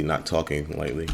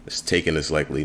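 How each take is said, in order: First: "not" pushed hard, then "talking" said as the wrong word; stress on NOT. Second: "taking" stressed as the correct word. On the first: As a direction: hit the word "not" to mark the mistake. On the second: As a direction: lean on "taking" to give the right version. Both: Shown as a demonstration. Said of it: "a dialogue error I gotta fix".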